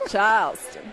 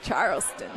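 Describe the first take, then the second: First: Charleston with the R dropped, "Chahlston"; Southern accent. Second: Said in the usual way. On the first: Shown as a demonstration. Repeats city in Southern accent.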